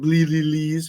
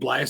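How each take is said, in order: First: The name has a second 'l' sound. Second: The name has no second 'l' sound. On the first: The speaker calls it wrong. "not the Bleelees" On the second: The speaker calls it right. "The Blias Sisters"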